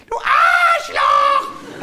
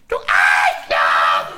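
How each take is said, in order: First: Very high, slow, loud screech; child shout. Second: Low, slow, loud insult; shout. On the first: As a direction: squeal it like a furious kid. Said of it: "hat er gesagt". (kreischendes Kind) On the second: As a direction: drag out the curse loudly. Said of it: "Und er sagte dann". (langsam gebrüllte Beleidigung) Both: Retold or imitated.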